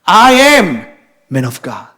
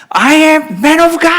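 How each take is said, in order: First: Bold declaration. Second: High, drawn-out battle cry; very loud shout. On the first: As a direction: proclaim it boldly, dropping off at the end. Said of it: "겉으로는 완전 담대하게". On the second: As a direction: shout it boldly, stretching each word. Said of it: "소리를 아주 크게 지릅니다". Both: Retold or imitated.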